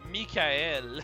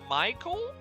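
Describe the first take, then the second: First: The name is said with French pronunciation. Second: The name is said with English pronunciation. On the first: "Mikael is the French pronunciation of the name" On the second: "Michael is the bastardized English pronunciation of the name"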